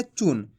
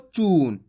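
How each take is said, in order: First: चून with a short, unstretched u; short vowel. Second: चून with a long, stretched oo; long vowel. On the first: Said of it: "छोटू की मात्रा को कैसे पढ़ेंगे". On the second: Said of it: "और बड़ू की मात्रा को". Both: Shown as a demonstration.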